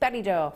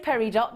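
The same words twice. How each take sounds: First: The final t is left silent. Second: The final t is clearly sounded. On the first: The speaker calls it right. "we say peridot" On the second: The speaker calls it wrong. "we don't say peridot"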